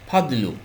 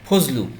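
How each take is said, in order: First: The middle consonant is a D sound. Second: The middle consonant is a Z sound. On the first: "আরবিতে ফাদলুটা" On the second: "Bangla হয়ে গেল ফজলু"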